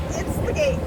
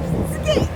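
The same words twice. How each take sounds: First: Said in the usual way. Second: Excited. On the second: Real, not acted. Excited at the Golden Gate.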